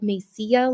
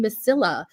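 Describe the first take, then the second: First: The double L is pronounced as a Y sound. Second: The double L is pronounced as an L sound. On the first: The speaker calls it right. "there's two L's at the end, so it's like Mesilla, like tortilla" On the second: The speaker calls it wrong. "I have no Spanish speaking"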